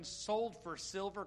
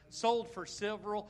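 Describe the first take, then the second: First: Said in the usual way. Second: "Sold for silver" again, louder and slower; louder repeat. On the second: Shown as a demonstration. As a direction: push "Sold for silver" louder to draw a response. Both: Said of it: "Come on, give me that one".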